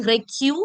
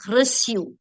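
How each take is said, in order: First: Reçu with a hard k, "re-KYU"; wrong hard-C reçu. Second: Reçu with an s sound, "ruh-SYU"; soft-C reçu. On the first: Teacher showing the mistake, reçu with hard K. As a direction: say reçu as if the C were a K. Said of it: "Instead of being reçu". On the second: Teacher correcting for students, reçu with soft S. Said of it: "it's reçu". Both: Shown as a demonstration.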